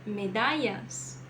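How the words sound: It is said with a Spanish regional accent. "Na Espanha"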